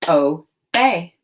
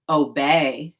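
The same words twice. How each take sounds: First: Obey split into O, pause, bey; two chunks. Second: Said in the usual way. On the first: Shown as a demonstration. Teacher demonstrates the two chunks, Obey as O... bey. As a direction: chop Obey into two separate syllables. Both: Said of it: "Now say the two chunks".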